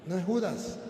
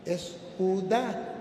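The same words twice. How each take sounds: First: "Judas" said in full with a clear final s; "Judas" pronounced JU-das with the s. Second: "Judá" slow with the stress on the final á and no s; "Judá" pronounced ju-DÁ, no s. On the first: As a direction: stress the first syllable of "Judas" and sound the s. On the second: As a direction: drag out "Judá", stressing the last syllable. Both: Shown as a demonstration. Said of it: "tiene un acento en la A y le falta la S".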